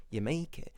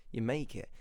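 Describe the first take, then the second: No difference in how they are said.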